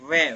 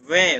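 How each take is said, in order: The two takes are said the same way.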